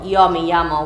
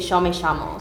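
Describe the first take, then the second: First: The Y and double L sound like English y. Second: The Y and double L sound like sh. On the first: This is how other countries say it. "we don't say also yo me llamo" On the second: This is how Argentinians say it. "we pronounce the Y and the double L like she"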